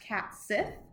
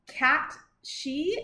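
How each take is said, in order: First: The name is pronounced the American way. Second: The name is pronounced the Scottish way. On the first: "in American English it would be pronounced cat sith" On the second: "how I hear the Scottish people pronouncing it"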